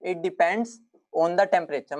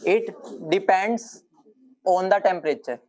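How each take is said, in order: First: Very slow, word by word; slow dictation. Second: Each word drawn out for note-taking; slow dictation. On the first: Teacher repeating the key rule slowly for notes. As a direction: spell it out slowly for students to copy. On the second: Teacher dictating slowly to class. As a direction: dictate it slowly so they can write. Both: Shown as a demonstration. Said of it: "ध्यान से लिखना".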